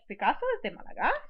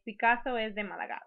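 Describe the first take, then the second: First: It is said with surprise and disbelief. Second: It is said as a plain statement.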